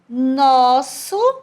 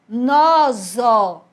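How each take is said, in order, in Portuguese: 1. O som do meio é um S sibilante. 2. O som do meio é um Z vibrante. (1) "o som de S" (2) "ele ia ficar com o som de Z"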